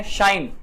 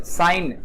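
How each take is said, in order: First: शाइन with a hushing initial sh; sh sound. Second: साइन with a plain initial s; s sound. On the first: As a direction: say शाइन starting on sh, not s. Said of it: "श का प्र". (शाइन की शुरुआत 'श' से करें) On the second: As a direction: say साइन starting on s, not sh. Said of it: "स का प्रयोग है". (साइन की शुरुआत 'स' से करें) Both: Shown as a demonstration.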